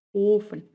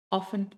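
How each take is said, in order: First: Long, closed O in "offen", as in Ofen; long vowel. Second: Short O in "offen"; short vowel. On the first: Teacher showing learners the long vowel in "offen". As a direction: stretch the first vowel of "offen". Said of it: "una vocal larga". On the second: Teacher showing learners the short vowel in "offen". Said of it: "una vocal corta". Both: Shown as a demonstration.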